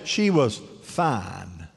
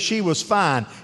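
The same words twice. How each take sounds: First: It is said in a drawn-out, admiring tone. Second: It is said in a plain, matter-of-fact tone. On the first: She was very attractive. "when you say it the way I said" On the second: She was feeling well. "You can say she was fine. You mean she felt okay"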